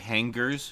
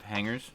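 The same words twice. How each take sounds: First: A hard G is sounded after the ng. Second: No hard G is sounded after the ng.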